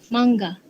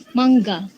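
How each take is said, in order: The two takes are said the same way.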